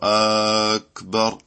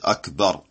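First: The first vowel is drawn out long. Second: The first vowel is said very short. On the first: The speaker calls it wrong. "il n'y a pas de prolongation de la hamza" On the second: The speaker calls it right. "elle est prononcée très courtement"

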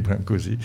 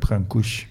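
First: The name is said with French sounds. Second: The name is said with Romanian sounds. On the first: This is the simpler everyday form of the name. "ça devient tout compliqué, donc on va dire Brâncuși" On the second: This is the original form of the name. "c'est en fait en roumain, ça s'appelle Brâncuși"

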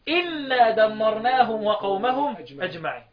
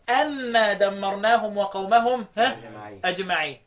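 First: The first word begins with an 'i' vowel. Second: The first word begins with an 'a' vowel. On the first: This is the other schools' reading. "عكس الفتح ايه؟ الكسر" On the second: This is one school's reading. "الكوفيون في الموضعين بفتح"

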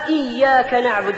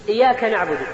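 First: The y sound is doubled and held. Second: The y sound is single and short. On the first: You alone we worship. The speaker calls it right. "بالشد على الياء" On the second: We worship the sun's disc. The speaker calls it wrong. "والإياك أيها الإخوة هو قرص الشمس"

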